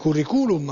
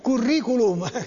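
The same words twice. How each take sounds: First: The stress falls on a u syllable. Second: The stress falls on the i syllable. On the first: "se fosse sulla U sarebbe curriculum" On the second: "con l'accento sulla I"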